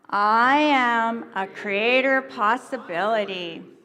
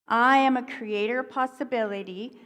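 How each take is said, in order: First: It is said with strong energy and force. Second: It is said calmly, without extra force.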